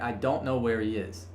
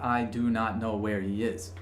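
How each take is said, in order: First: The function words are contracted and run together. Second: Every word is said separately and in full. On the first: The speaker calls it right. "It'll sound like" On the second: The speaker calls it wrong. "it won't sound like"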